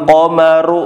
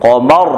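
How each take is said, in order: First: The final ra is followed by a vowel. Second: The word ends on a bare consonant. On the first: The speaker calls it wrong. "bukan berarti wa syaqqal qamaru, jangan dibaca ra-nya" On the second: The speaker calls it right. "disukun qamar"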